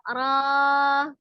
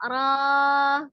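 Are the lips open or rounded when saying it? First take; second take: open; open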